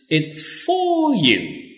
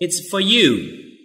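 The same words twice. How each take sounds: First: The word 'for' is said in full and stressed. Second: The word 'for' is reduced and unstressed. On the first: It is especially important for the listener. "Or you can use the strong form" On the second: It is said in the normal, neutral way. "We just use the weak form"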